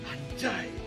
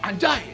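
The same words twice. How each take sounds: First: It is said with hurt frustration. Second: It is said with open anger. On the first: A loss is keenly felt. "sedang marah akibat kehilangan, ditinggal mantan" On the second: The word is meant as an insult. "kita marah"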